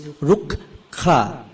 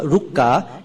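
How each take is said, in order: First: The K is followed by a slight breath. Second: The K is said without a following breath. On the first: The speaker calls it right. "the H is slightly audible" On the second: The speaker calls it wrong. "It's not rukka"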